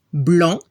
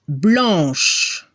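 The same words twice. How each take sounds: First: Blanc ending on the nasal vowel, C silent; silent final C. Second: Blanche ending on a long "sh"; French blanche, low, silent E after the SH; final SH sounded. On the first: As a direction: say French blanc as "blahn", with no K sound. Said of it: "no se pronuncia la C". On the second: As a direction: let blanche fall into a drawn-out SH. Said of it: "se escucha le son sh". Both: Shown as a demonstration.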